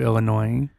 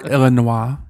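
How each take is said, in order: First: It is said the plain American way. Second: It is said with a French-sounding pronunciation.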